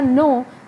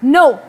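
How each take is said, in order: First: The word is said at a normal pitch. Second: The word is said angrily with the pitch raised. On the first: "ये एक normal मैंने बोला, मेरी pitch जो थी वो नॉर्मल" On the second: "मैंने गुस्से से बोला, और इसमें मेरी पिच क्या हुई, राइज हुई"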